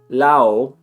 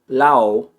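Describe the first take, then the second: First: The d sound is left out entirely. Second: The d sound is left out entirely.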